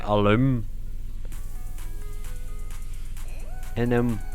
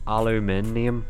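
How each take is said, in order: First: Four syllables are said, with no extra 'i' sound. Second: Five syllables are said, with an extra 'i' sound. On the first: This is how Americans say it. "They just pronounce it without the I. They say alum, inum" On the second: This is the form the speaker expects. "instead of aluminium"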